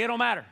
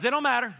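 First: Said in the usual way. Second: Alabama accent. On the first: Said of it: "Look at your neighbor and say". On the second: Shown as a demonstration. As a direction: ham up a Southern Alabama accent for the crowd. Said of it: "your best Alabama accent".

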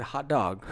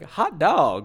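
First: Said in the usual way. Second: Higher, jaunty 1950s "hot dog"; old fifties exclamation. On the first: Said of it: "he pointed at it, and he said". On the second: Retold or imitated. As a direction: exclaim it like an old-fashioned cartoon cheer. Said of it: "like, the old nineteen fifties".

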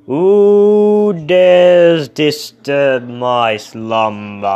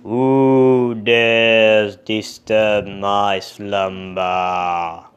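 First: Very loud, slow booming monster; louder monster roar. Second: Slow, booming monster; loud, drawn-out monster roar. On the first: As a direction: bellow it, shaking the ground. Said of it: "even louder". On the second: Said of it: "And the monster said". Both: Acted.

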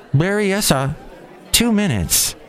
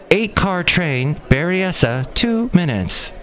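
First: High, even automated announcement; train announcer voice. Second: Slower, lighter take on the train announcement; train announcer voice. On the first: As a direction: announce the stop like a recorded train voice. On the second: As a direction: drawl the stop like the recorded voice. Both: Retold or imitated. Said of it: "the electronic voice woman".

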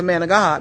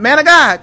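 First: Said in the usual way. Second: High, loud summons; calling out. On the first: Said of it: "I would go back to". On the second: Retold or imitated. Wife calling God back in the room, raised calling voice. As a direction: call him out as if summoning God. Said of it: "I wanna call God back in the room".

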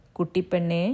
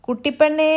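First: Gentle. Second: Calling out loud and high across the yard; shouted name, high and loud. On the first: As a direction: coax her kindly. Husband gently reassures his wife. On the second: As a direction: yell for your wife. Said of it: "ഉച്ചത്തിൽ തൻ്റെ ഭാര്യയെ വിളിച്ചു". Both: Acted.

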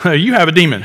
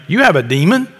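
First: Laughing mockery. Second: Incredulous crowd, rising. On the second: Retold or imitated. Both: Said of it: "the crowd answered him".

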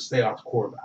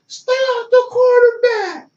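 First: Said in the usual way. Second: High, slow, stretched-out yell from across the field; mock coach yell. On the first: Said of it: "That's all I heard". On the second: Coach yelling at a player from the sideline, high drawn-out yell. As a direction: draw it out high like a coach hollering. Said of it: "can't yell".

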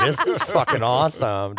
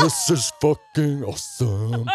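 First: Said in the usual way. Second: Slow stoner drawl. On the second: Retold or imitated. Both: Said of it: "I'm like".

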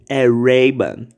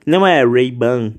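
First: Ray-Ban very slow, as re-bɐ; a slow, careful Ray-Ban; mock right Ray-Ban. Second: Ray-Ban said slowly as Brazilian rej-bɐ; drawn-out wrong Ray-Ban; mock wrong Ray-Ban. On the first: Imitating the meme girl's correct Ray-Ban, very slowly. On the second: Mocking the meme girl's wrong Ray-Ban, said slowly. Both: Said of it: "ficou falando de".

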